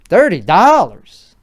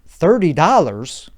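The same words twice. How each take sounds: First: It is said in a put-on Chicago accent. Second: It is said in his plain everyday accent.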